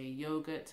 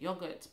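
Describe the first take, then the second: First: The word is said with an American pronunciation. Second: The word is said with a British pronunciation. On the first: "in America people say yogurt" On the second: "here we say yogurt"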